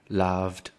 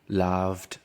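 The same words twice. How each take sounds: First: The ending is pronounced as a t sound. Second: The ending is pronounced as a t sound.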